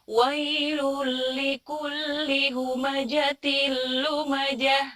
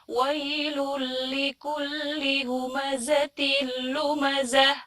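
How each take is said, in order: First: The consonant in humazah is a j sound. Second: The consonant in humazah is a z sound. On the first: The speaker calls it wrong. "zainya malah menjadi jim" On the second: The speaker calls it right. "yang harusnya"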